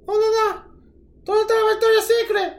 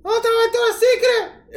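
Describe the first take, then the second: First: High, fast Puerto Rican tourist voice; puerto rican accent. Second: High Puerto Rican tourist voice; puerto rican accent. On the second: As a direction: imitate a lost Puerto Rican tourist asking. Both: Retold or imitated. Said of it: "did your Puerto Rican accent come out?".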